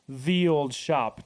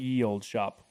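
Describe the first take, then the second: First: The first word begins with a th sound. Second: The first word begins with a y sound. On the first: The speaker calls it right. "is pronounced the old shop" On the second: The speaker calls it wrong. "not ye old shop"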